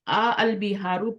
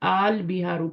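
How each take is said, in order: First: The two opening vowels are said separately. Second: The two opening vowels merge into one long vowel. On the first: The speaker calls it wrong. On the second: The speaker calls it right.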